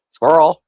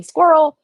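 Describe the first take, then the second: First: Squirrel dropped much lower; playful low echo of Squirrel; low-pitched squirrel. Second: Higher, falling pitch on Squirrel; playful high blurt of Squirrel. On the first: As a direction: say Squirrel down deep. Host repeats distraction word low. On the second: Host blurts distraction word twice, contrasting. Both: Pretend.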